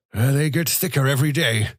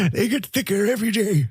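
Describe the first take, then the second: First: Put-on first try, raised toward a thin old voice; a milder complaint, pitched higher; old man complaining. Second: Put-on much higher, thin old man's falsetto; thin falsetto complaint. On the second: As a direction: whine it in a frail falsetto. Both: A narrator's reading. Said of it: "he complained in a thin, undependable falsetto".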